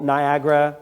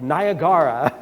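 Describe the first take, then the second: First: It is said with the usual North American pronunciation. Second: It is said with a foreign, non-North American pronunciation.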